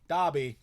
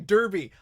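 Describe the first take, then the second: First: It is said with a British pronunciation. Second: It is said with an American pronunciation. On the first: The speaker calls it wrong. "You're pronouncing it wrong" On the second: The speaker calls it right. "It's fucking Derby"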